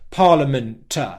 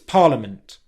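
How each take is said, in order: First: The T bursts out, adding an extra syllable. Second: The T ends with only a small puff. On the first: The speaker calls it wrong. "turned that into a big release of air and essentially made another syllable like this" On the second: The speaker calls it right. "A small plosive release"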